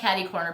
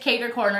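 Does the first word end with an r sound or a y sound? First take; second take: y sound; r sound. First: The first word ends with a y sound. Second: The first word ends with an r sound. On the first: The speaker calls it wrong. "It's not caddy corner. People were saying it wrong" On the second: The speaker calls it right. "it's cater corner"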